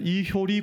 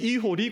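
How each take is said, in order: First: The middle syllable is said as hyo. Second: The middle syllable is said as ho. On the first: The speaker calls it wrong. "이호리가 발음이 안 돼서 이효리 공동체 뭐 이러는 분도 있더라고요" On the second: The speaker calls it right. "이게 이효리가 아니고 이 이호리 공동체"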